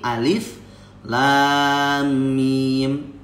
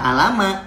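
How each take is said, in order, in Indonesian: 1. Setiap nama huruf diucapkan terpisah dan lengkap. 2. Hurufnya disambung menjadi satu kata pendek. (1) "tapi alif lam mim" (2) "Jangan dibaca alama"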